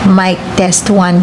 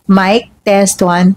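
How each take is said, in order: First: Background noise is left in, without noise reduction. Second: Background noise is filtered out by noise reduction. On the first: "I'm going to turn off noise cancellation" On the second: "we have noise cancellation on"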